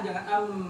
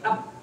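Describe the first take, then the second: First: The final m is held very long. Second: The final m is cut off abruptly. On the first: "jangan kepanjangan" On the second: "Jangan pula langsung berhenti"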